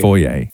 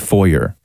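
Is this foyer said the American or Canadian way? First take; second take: Canadian; American. First: Foyer is said with a Canadian pronunciation. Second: Foyer is said with an American pronunciation. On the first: "where we say foyer" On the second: "they say foyer"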